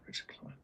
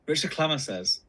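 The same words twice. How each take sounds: First: Whispered name. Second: Said in the usual way. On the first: Shown as a demonstration. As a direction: whisper the name, barely audible. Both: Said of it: "I don't know if I can say that".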